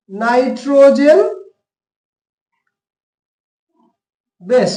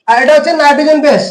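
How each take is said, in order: First: nitrogen drawn out very slowly, long pause before বেস; slow emphasis. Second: Said in the usual way. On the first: Shown as a demonstration. Teacher stressing the term nitrogen বেস for students, slow and drawn out.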